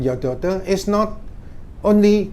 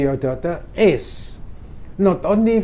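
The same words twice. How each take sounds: First: 'Is not' runs together without a pause. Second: There is a short pause after 'is'. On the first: It sounds like a negative sentence. The speaker calls it wrong. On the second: 'Not only' works as a linking phrase. The speaker calls it right.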